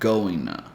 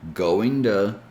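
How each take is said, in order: First: The t is dropped and joined to n. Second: The t in 'to' sounds like a d. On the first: "completely drop the T sound and connect with the N sound" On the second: "the T sound changes to a D sound"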